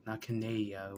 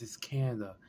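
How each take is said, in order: First: Canada said Ka-NAY-dee-uh, stressed on NAY; mocking the wrong form, Canada as Ka-NAY-dee-uh; wrong pronunciation. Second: Canada said KAN-uh-duh, first syllable stressed; correcting the girl's mistake, Canada as KAN-uh-duh; correct pronunciation. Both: Shown as a demonstration.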